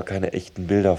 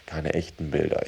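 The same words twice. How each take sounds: First: Said in the usual way. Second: "echten" set apart as the key word; stress on "echten". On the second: Shown as a demonstration. Speaker clarifies which images of the province are missing, stress on "echten". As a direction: lean on "echten", let "Bilder" fall away. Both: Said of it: "die Betonung liegt auf echt".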